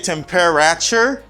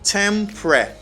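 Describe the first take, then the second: First: Every syllable is pronounced in full. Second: A middle syllable is dropped, shortening the word. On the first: The speaker calls it wrong. "You don't say temperature" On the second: The speaker calls it right. "You just say tempre"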